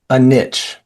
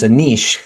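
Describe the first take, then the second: First: Niche is said the American way, like nitch. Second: Niche is said the European way, like neesh.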